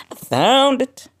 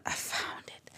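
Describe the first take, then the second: First: "found" shouted high and loud; triumphant shout. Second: Soft whispered "found it". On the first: Podcaster celebrating she found peace, shouting. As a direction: burst out in triumph. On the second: Podcaster revealing she found peace, whispering. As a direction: hush it like a secret. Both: Real, not acted.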